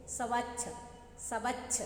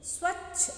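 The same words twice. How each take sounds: First: स्वच्छ split as "स-वच्छ" with an extra vowel; wrong pronunciation. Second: स्वच्छ with a tight "स्व" cluster, no extra vowel; correct pronunciation. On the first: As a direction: read स्वच्छ wrongly as "सवच्छ". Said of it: "स्वच्छ तो नहीं बोलते बच्चों". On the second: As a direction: say स्वच्छ cleanly as one syllable cluster. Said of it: "हम क्या बोलते हैं?". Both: Shown as a demonstration.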